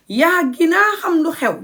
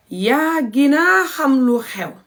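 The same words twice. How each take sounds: First: Higher, natural take. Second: Slow demo. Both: Shown as a demonstration. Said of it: "This is the proper Gambian Wolof".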